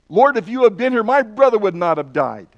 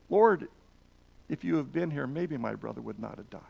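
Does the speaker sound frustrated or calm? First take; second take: frustrated; calm. First: It is said in a frustrated tone. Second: It is said in a calm tone.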